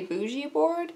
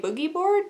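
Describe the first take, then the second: First: The first word has a soft J sound. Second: The first word has a hard G sound. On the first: "the J makes me want to say Bougie Board" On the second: "I want to say Boogie Board"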